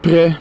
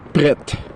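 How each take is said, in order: First: The final T is silent. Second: The final T is clearly pronounced.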